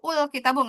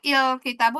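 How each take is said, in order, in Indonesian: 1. Kata ini diawali dengan vokal u. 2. Kata ini diawali dengan vokal i. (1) "nggak pernah" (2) "nggak pernah"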